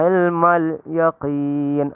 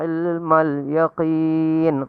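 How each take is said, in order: The two takes are said the same way.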